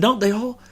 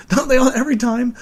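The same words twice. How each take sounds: First: Said in the usual way. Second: Louder repeat, breaking into a laugh. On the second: Real, not acted. Podcaster repeating his own joke to listeners, laughing. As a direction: laugh it out the second time.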